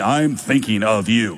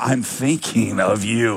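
First: It sounds worried and caring. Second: It sounds loving and suggestive.

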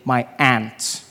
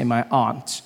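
First: It is said in an American accent. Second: It is said in the speaker's own accent.

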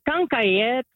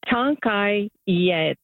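First: It is said quickly, run together. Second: It is said slowly and carefully.

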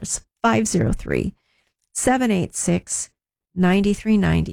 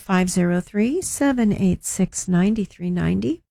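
First: The number is said at a slower pace. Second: The number is said at a quicker pace.

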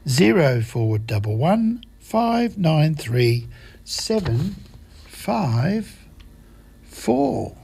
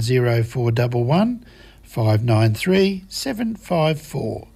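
First: The number is read at a slower pace. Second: The number is read at a faster pace.

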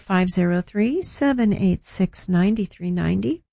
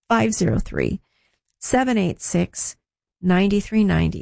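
First: The number is said at normal speed. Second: The number is said more slowly.

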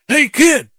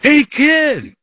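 First: It is called out at normal loudness. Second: It is yelled more loudly.

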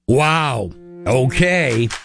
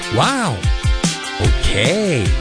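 First: It sounds sarcastic. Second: It sounds flirty.

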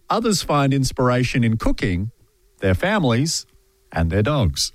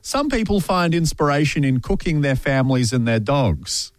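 First: It has pauses after cooking and after families. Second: It is said without pauses between the items.

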